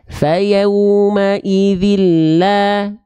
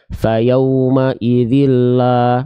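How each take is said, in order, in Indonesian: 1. Diucapkan dengan sedikit senyum. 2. Diucapkan dengan bibir datar, tidak tersenyum. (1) "la ada senyumnya sedikit"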